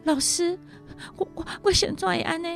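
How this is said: The voice is breathy, stuttering and pitiful.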